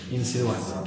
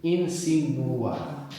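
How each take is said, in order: First: Said in the usual way. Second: "Insinuar" very slowly, syllable by syllable, oo-sound with no y; pure U sound. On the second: Shown as a demonstration. Teacher models the Spanish U, "Insinuar" slowly with a clean oo. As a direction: stretch "Insinuar" as "een-see-noo-AR". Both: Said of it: "What we have there is a U".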